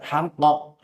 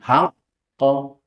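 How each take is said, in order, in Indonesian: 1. Qaf langsung meledak tanpa ditahan. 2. Qaf ditahan sebentar sebelum meledak. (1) "Kalau qalqalah kubra langsung meledak" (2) "ditahan dulu sebentar"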